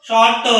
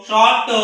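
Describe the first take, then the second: The two takes are said the same way.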